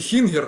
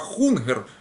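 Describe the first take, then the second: First: The first vowel is an 'ee' sound. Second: The first vowel is an 'oo' sound. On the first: It follows a Polish-Lithuanian pronunciation for the rhyme. "на польско-литовский манер можно Хингер произнести" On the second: It follows the standard pronunciation. "а Хунгер правильно"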